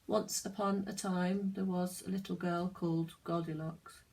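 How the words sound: It is said flat and boring.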